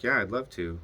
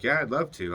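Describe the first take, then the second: First: Said in the usual way. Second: Higher, eager yes with an edge; eager, a bit sore. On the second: Retold or imitated. Telling his ex he'd love to come, higher and eager. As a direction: jump at the invite, a bit too keen. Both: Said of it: "I wasn't really pissed off yet".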